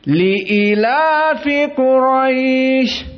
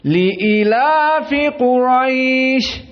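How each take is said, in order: Both takes have the same delivery.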